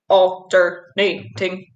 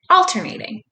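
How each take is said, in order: First: It is said in a flat, mechanical robot voice. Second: It is said in a normal speaking voice. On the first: "Can you say it in a robot voice?" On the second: "Say the word alternating with me"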